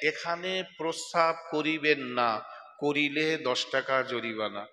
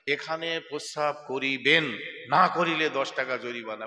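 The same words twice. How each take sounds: First: The pause comes after the word 'na'. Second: The pause comes before the word 'na'.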